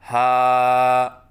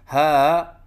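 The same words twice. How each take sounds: First: The voice stays steady through the vowel. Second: The voice wavers through the vowel. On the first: The speaker calls it right. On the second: The speaker calls it wrong.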